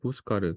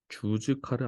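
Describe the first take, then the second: First: It begins with an 'h' sound. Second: It begins with a 'j' sound. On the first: The speaker calls it right. "스페인어로는 J가 히읗 발음 난다" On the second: The speaker calls it wrong. "주즈카르 아니고"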